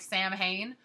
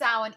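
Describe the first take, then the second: First: The word is pronounced letter by letter as spelled. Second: The word is not pronounced the way it's spelled. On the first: The speaker calls it wrong. "pronounce it like Sam Hain or something" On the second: The speaker calls it right. "it's pronounced Samhain, even though it is spelled S A M H A I N"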